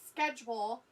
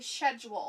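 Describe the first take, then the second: First: The word is said in a non-British way. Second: The word is said the British way. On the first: "instead of saying schedule" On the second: "The English say that"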